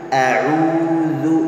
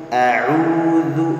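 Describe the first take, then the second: No difference in how they are said.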